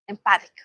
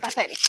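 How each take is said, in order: First: Says Empathic, the clipped wrong form without the -etic ending; mispronounced empathic. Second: Repeats Empathetic with the full em-pa-THE-tic ending, softer; corrected pronunciation. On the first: Teacher tries Empathic, not yet knowing the word. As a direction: try the word as Empathic first, before being corrected. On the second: After a listener's correction, teacher repeats Empathetic softly. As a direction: echo the corrected word Empathetic back quietly. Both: Shown as a demonstration.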